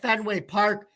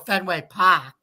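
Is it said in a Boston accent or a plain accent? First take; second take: plain; Boston. First: It is said in a plain accent. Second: It is said in a Boston accent.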